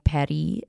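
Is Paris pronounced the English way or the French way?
French. It is pronounced with a French accent. "imitate people who speak it natively"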